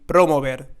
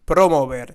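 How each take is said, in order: The two takes are said the same way.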